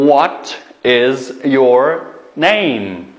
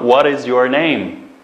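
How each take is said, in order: First: What is your name, very slow and drawn out; slow model question. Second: Said in the usual way. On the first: Shown as a demonstration. Teacher modelling the question slowly for pupils. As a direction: stretch each word for the learners. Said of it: "Deganda so'raymiz".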